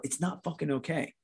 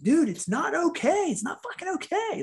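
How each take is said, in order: First: Restrained retold frustration, moderately raised pitch; inner protest. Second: Very high-pitched, strained outburst; acted high-pitched frustration; exasperated protest. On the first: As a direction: voice the private thought under the agreeable front. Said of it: "But inside, I'm sitting there going". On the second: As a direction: act out snapping back at empty comfort, voice way up. Acted protest at being comforted.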